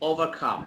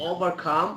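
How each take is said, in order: Both takes have the same delivery.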